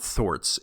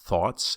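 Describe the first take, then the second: First: The word has an R-like sound in it. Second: The word has no R-like sound in it. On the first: The speaker calls it wrong. "it sounded like there was an R sound almost in there. So it's not thoughts" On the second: The speaker calls it right. "it's thoughts"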